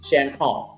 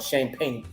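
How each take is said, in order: First: It is said with a French pronunciation. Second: It is said with an English pronunciation.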